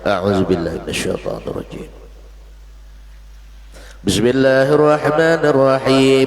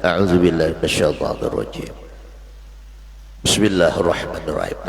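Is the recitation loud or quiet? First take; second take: loud; quiet. First: It is recited aloud at full voice. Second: It is recited softly in a low voice. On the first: The reciter is leading the prayer. "Itu kalau jadi imam" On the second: The reciter is following in prayer. "pelan aja bacaannya"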